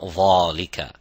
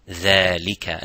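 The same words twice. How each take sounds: First: It starts with a heavy th sound. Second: It starts with a light th sound. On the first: The speaker calls it wrong. "not dhalika" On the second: The speaker calls it right. "empty mouth"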